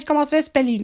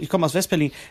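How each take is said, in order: First: The voice is very high and squeaky. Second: The voice is at a normal pitch.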